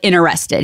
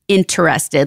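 First: The syllables of the word are run together. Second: Every syllable of the word is pronounced clearly. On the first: "He like mushed it all together" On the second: "like making a point"

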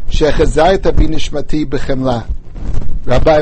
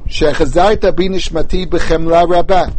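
First: There is a pause after b'chemla. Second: There is no pause after b'chemla. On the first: The mercy and the great faithfulness are separate phrases. The speaker calls it right. "I pronounced it very carefully with a comma afterward" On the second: The word rabbah describes the mercy, meaning great mercy. The speaker calls it wrong. "as if rabbah was an adjective or an adverb to the word b'chemla"

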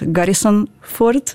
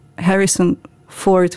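First: The name begins with a G sound. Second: The name begins with an H sound.

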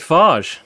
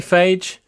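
First: The word does not rhyme with 'age'. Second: The word rhymes with 'age'. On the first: "Some people say phage" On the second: "rhymes with age"

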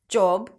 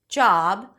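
First: The vowel is a rounded oh sound. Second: The vowel is an open ah sound. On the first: The speaker calls it wrong. "pronouncing this O as O" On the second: The speaker calls it right. "it's actually a back open ah sound"

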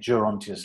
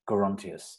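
First: The word begins with a soft G sound. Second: The word begins with a hard G sound. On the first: "I always wanted to say Gerontius like Gerald" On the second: "Elgar said it should have a hard G"

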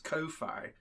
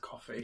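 First: The word rhymes with lo-fi. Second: The word sounds like coffee. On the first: The speaker calls it wrong. "I kept pronouncing it as Ko-fi, like lo-fi" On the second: The speaker calls it right. "oh, it means coffee"

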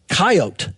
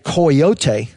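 First: The word is said with two syllables. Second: The word is said with three syllables. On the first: This is how the trappers said it. "they would say coyote" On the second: This is how the Mexicans said it. "they couldn't pronounce that with three syllables"

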